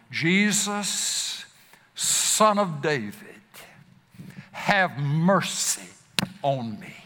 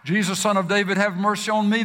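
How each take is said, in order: First: Pleading cry. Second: Crying out. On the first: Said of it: "to cry out that same cry". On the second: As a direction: call out to Jesus over the crowd. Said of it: "even the cry". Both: Retold or imitated.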